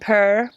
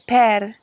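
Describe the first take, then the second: First: It is said with an American accent. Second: It is said with an Italian accent. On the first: The speaker calls it wrong. "or if you're American" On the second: The speaker calls it right. "you want to say per"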